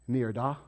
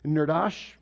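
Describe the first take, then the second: First: The word ends with a vowel sound. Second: The word ends with an s sound. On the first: The speaker calls it right. "there's no S in there" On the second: The speaker calls it wrong. "actually I said that wrong"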